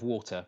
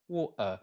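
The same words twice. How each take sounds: First: The middle T is pronounced as a clear T. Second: The middle T is replaced by a glottal stop. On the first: "instead of" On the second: "there's a lovely little glottal stop in there as well"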